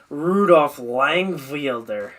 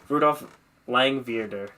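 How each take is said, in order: First: The second part of the surname starts with W. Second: The second part of the surname starts with V.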